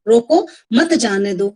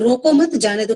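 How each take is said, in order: First: There is a pause after रोको. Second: There is a pause after मत.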